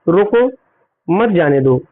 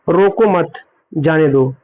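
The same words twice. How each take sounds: First: The pause comes after 'roko'. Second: The pause comes after 'mat'.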